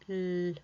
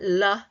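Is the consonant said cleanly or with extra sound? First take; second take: clean; extra sound. First: The consonant is said cleanly on its own. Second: The consonant is said with extra sound attached. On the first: The speaker calls it right. "a clean l" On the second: The speaker calls it wrong.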